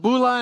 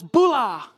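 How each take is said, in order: First: Said in the usual way. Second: Drawn-out called-out "Bula" with a falling tune; retold yell of a greeting. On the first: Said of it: "And so I just said". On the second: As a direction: holler a hello across the street, mildly. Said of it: "just yells".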